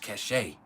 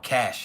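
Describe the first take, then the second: First: The word is said with two syllables. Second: The word is said with one syllable. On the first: "That's how I pronounce it" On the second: "I don't know if y'all call it cash"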